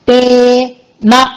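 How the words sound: There is a short pause between the syllables. It means 'to you' followed by a negation. The speaker calls it right. "తే తర్వాత కొంచెం gap ఇచ్చి నా అని వస్తుంది"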